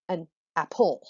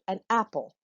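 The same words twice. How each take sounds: First: The stress is on the second syllable. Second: The stress is on the first syllable. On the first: The speaker calls it wrong. "not an apple" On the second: The speaker calls it right. "I'm going to go eat an apple"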